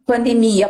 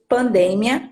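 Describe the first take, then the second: First: Pandemia stressed on the MI, pan-de-MI-a; Portuguese word stress. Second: Pandemia stressed on the DE, pan-DE-mia; Spanish word stress. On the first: Teacher labelling the Portuguese version, pandemia stressed on mi. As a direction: lean on the i of pandemia, near the end. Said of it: "português". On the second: Teacher labelling the Spanish version, pandemia stressed on de. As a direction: lean on de in pandemia, with a short final mia. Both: Shown as a demonstration.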